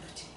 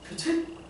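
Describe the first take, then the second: First: It is said quietly and softly. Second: It is said loudly and confidently. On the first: The speaker is not yet confident in the answer. "조용히, 조용히 이렇게 대답" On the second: The speaker is confident in the answer. "자신있게 목소리를 좀 내보는 거야"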